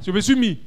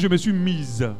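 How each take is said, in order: First: The last word ends without a z sound. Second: The last word ends with a z sound. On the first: It sounds like a man is speaking. The speaker calls it right. "là-bas c'est mis" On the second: It sounds like a woman is speaking. The speaker calls it wrong. "Ça fait bizarre quand même. C'est comme si je parlais comme une femme"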